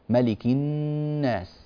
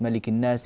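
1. تُمَدّ الغنة على النون. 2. الغنة على النون قصيرة. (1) "هذا كله لابد من العناية بغننه" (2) "لا يعتني ... هكذا. لا ينبغي ذلك"

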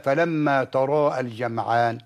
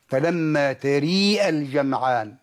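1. الصوت في taraa هو a مفتوحة خالصة. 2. الصوت في taraa يميل نحو e.

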